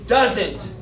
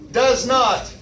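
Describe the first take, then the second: First: It is said as one contracted word. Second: It is said as two separate full words. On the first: "Here are three of the contractions" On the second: "two different words"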